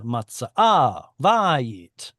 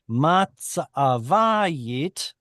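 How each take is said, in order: First: Matza'avayit with two stressed syllables in a row; clashing stresses. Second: Matzavayit with the stress pulled forward off the last syllable of matza; shifted stress. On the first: Teacher showing why stress moved, matza'avayit with clashing neighbouring stresses. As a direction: punch both AH and VA side by side in matza'avayit. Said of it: "trying to get two stress syllables in a row".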